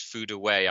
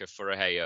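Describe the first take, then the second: First: The name is said like 'Fudaway'. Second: The name is said like 'Furahey'. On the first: The speaker calls it right. "but it's Fudaway" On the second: The speaker calls it wrong. "Last time I tipped Ayaka Furahey up"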